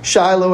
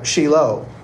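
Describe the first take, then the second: First: The i is said as a long 'eye' sound. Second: The i is said as an 'ee' sound. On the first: The speaker calls it wrong. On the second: The speaker calls it right.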